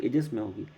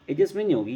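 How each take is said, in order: First: Said in the usual way. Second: नहीं lifted and firmer; correcting, punch नहीं; stress on नहीं. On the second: Shown as a demonstration.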